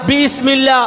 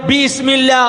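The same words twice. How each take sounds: The two takes are said the same way.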